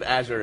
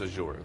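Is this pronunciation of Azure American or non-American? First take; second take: American; non-American. First: It is pronounced the American way. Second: It is pronounced the non-American way. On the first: "it's a flagrant U.S.-centric thing that we do" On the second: "rest of the world says Azure"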